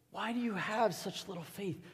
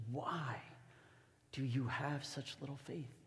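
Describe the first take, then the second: First: Higher-pitched question in one unbroken phrase; raised-pitch, searching question; pleading reproach. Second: Soft question with a long pause after "Why"; hushed reproach. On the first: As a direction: repeat it higher, pressing for an answer. Jesus repeats question more pleadingly. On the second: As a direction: ask it quietly, letting "Why" hang. Jesus questions disciples, first take. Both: Acted.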